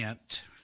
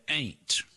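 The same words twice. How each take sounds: First: It is said like the insect 'ant'. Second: It is said in a Deep East Texas accent.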